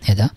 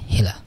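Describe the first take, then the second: First: The middle consonant is a clear d sound. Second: The middle consonant sounds like an l. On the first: "এটাকে হেডা উচ্চারণ বলে" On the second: "মানে এখানে ড বা ডটাকে লয়ের মতো শোনা যাবে"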